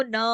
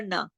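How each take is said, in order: First: ना with the vowel dragged on too long; drawn-out demo of faulty ना; wrongly stretched. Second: Said in the usual way. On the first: Shown as a demonstration. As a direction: overextend ना as the mistake to avoid. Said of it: "आवाज को आगे बढ़ाना नहीं है". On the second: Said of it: "ये नहीं खींचेगा ज्यादा".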